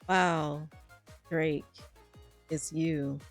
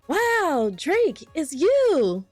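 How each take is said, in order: First: It sounds only mildly surprised. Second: It sounds much more surprised.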